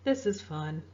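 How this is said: It sounds sad, low and downcast. The speaker is unhappy despite the words. "where I might sound a little sad"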